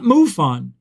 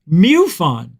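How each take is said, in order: First: The first syllable does not sound like 'mew'. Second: The first syllable sounds like 'mew'. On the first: The speaker calls it wrong. "not MUFON" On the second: The speaker calls it right. "Mew. It's now spelled M E W F O N"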